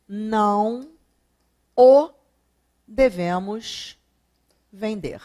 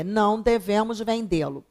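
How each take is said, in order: First: "não o devemos vender" spoken slowly, with long pauses between the words; slow second option. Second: Said in the usual way. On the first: Shown as a demonstration. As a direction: lay out "não o devemos vender" word by word for the class. ("não o devemos vender" dito devagar, palavra por palavra) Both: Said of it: "Não devemos vendê-lo ou não o devemos vender?".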